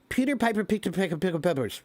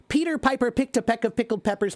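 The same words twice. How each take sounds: First: The consonants are slurred and indistinct. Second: The consonants are crisp and clearly articulated. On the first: The speaker calls it wrong. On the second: The speaker calls it right.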